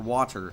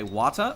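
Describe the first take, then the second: First: The final R sound is pronounced. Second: The final R sound is dropped.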